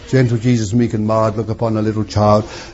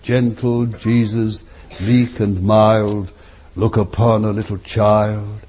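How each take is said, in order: First: It is gabbled quickly without expression. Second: It is said slowly and with care. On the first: The words are rattled off without understanding. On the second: The words are said with understanding.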